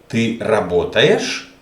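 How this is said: It is said with question intonation.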